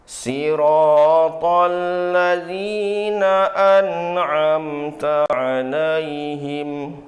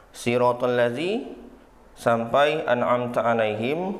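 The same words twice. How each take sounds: First: Slow, high chant that rises and is left hanging; sung, third-level recited tone. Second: Said in the usual way. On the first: Shown as a demonstration. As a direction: chant alaihim slowly, leaving it suspended and unresolved. (sung, tilawah nada ketiga, pelan, digantung di akhir) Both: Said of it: "Tingkatan ketiga".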